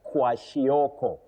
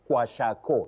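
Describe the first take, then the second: First: The middle syllable is pronounced 'shio'. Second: The middle syllable is pronounced 'sha'. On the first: The speaker calls it right. "So it is shioko" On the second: The speaker calls it wrong. "What we should avoid is kwashako"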